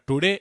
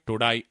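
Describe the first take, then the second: First: The last vowel sounds like 'day'. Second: The last vowel sounds like 'die'. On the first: "మీరు బ్రిటన్కి వెళితే అక్కడ టుడే అన్నటువంటి మాటని" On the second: "ఆస్ట్రేలియాకు వెళితే అక్కడ టుడాయ్ టుడాయ్ అంటారు"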